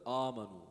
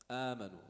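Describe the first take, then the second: First: The long vowel after the hamza sounds heavy. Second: The long vowel after the hamza sounds light. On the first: The speaker calls it wrong. "instead of" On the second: The speaker calls it right. "it should be pronounced amanu, a instead of ah"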